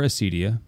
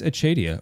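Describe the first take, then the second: First: The consonant after the first vowel sounds like s. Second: The consonant after the first vowel sounds like ch. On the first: This is the non-Latin way of saying it. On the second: This is the traditional Latin way of saying it.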